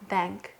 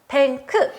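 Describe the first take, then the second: First: The final k is clipped short without a vowel. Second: The final k is drawn out with a vowel. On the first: The speaker calls it right. "이렇게 발음하고" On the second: The speaker calls it wrong. "미국인들은 끝자음을 질질 끄는 걸 안 좋아해요"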